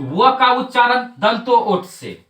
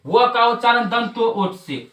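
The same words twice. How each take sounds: First: "व का उच्चारण" spoken slowly, each word set apart for pupils to repeat; slow drill recital. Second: Said in the usual way. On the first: Shown as a demonstration. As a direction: dictate it slowly so the class can chant along. (धीमे-धीमे रटवाते हुए) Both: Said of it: "तीन चार बार बोलिए".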